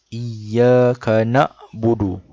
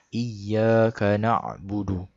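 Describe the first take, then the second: First: A light glottal stop follows na. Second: A pressed throaty ain follows na. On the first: The speaker calls it wrong. "Kalau hamzah mati" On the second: The speaker calls it right. "Na kena tekan lagi, baru dia jadi huruf ain"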